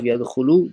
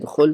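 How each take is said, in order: First: The word ends with a final u vowel. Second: The word ends on a consonant, no vowel. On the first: The speaker calls it wrong. "instead of يدخلوا" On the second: The speaker calls it right. "لما makes it sukoon"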